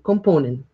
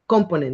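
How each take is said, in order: First: The stress is not on the first syllable. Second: The stress is on the first syllable. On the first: The speaker calls it right. "We say component" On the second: The speaker calls it wrong. "Most stress goes at the beginning, but however, it's not component"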